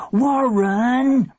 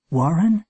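First: High, drawn-out scolding cry; long high shout of protest; exasperated yell. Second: Raised, rising, wondering question; mother's surprised question; echoing question. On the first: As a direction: yell the name at a pesky brother. Sister shouts as he yanks cord. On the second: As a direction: repeat the name in disbelief. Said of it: "It was like an echo". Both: A narrator's reading.

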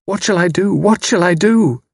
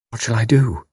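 First: Higher, louder desperate cry; anguished outcry before weeping; cried out. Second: Small, lost and forlorn; forlorn question. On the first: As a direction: cry it out in despair, the repeat climbing. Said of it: "She cried out". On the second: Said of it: "A simple, forlorn question". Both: A narrator's reading.

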